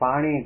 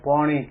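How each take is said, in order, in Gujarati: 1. પહેલો સ્વર ખુલ્લો 'a' અવાજ છે. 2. પહેલો સ્વર ગોળ 'o' અવાજ છે. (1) "ગુજરાત કે કાઠિયાવાડની અંદર આપણે પાણીને પાણી કહીએ" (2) "ખેડા જિલ્લામાં અને ચરોતરમાં પાણીને પોણી"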